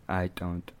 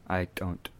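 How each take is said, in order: Both takes have the same delivery.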